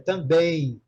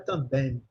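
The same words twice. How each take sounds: First: The word ends with an ee-like glide sound. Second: The word ends with the lips closed on M. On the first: The speaker calls it right. "Em português é também, termina com I" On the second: The speaker calls it wrong. "não é também"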